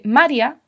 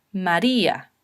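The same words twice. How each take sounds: First: "María" as MA-rya, i unstressed; theoretical mispronunciation. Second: "María" as ma-RÍ-a, lower pitched; stressed i. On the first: Teacher showing how it is not said, "María" mispronounced with a weak i. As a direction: slide the i of "María" into the a as a glide. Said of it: "Yo debería pronunciar teóricamente". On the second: Teacher showing the exception to the rule, "María" with stressed í. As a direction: lean on the í of "María", apart from the a. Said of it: "se pronuncian con fuerza". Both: Shown as a demonstration.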